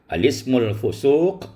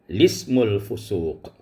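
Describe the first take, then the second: First: The phrase starts with a glottal 'a' before 'l'. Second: The phrase starts directly with the 'l' sound. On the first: The article's initial hamzah is kept when starting here. "dengan membaca atau mengisbatkan hamzah pada al-ta'rif" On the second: The article's initial hamzah is dropped when starting here. "dan boleh dengan membuangnya"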